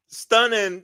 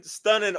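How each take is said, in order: First: Stunning. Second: Said in the usual way. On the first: Real, not acted. Exclaiming praise for the opener.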